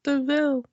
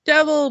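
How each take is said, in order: First: It sounds like de-VEEL, not devil. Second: It sounds like the word devil. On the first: The speaker calls it right. "but it's pronounced devil" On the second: The speaker calls it wrong. "looks like devil"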